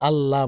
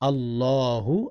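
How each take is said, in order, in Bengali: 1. শব্দটি কোনো শেষ স্বরধ্বনি ছাড়া শেষ হয়। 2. শব্দটি স্পষ্ট 'u' স্বরধ্বনি দিয়ে শেষ হয়।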